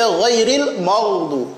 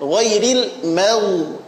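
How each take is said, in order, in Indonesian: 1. Bunyi 'm' berat dan tebal. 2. Bunyi 'm' ringan dan tipis. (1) "Jangan dibaca" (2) "mim tipis gha-nya tebal"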